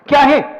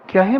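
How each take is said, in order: First: The voice sounds sharp and irritated. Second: The voice sounds soft and affectionate. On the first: The mother is annoyed at being called repeatedly. The speaker calls it wrong. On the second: The mother responds with warmth and closeness. The speaker calls it right.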